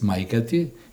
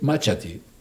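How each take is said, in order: First: The middle consonant is pronounced as 'k'. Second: The middle consonant is pronounced as 'ch'. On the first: This is the standard form. "the standard is maikati" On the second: This is the local dialect form. "they say machati"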